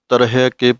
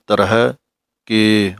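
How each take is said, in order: First: The two words are run together. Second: The two words are said separately. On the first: The speaker calls it wrong. "ਇਸ ਤਰ੍ਹਾਂ ਤਰਹਿ ਕੇ ਪਾਠ ਇਕੱਠਾ ਨਹੀਂ ਹੈ" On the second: The speaker calls it right. "ਮਗਰੋਂ ਬੋਲਣਾ ਹੈ"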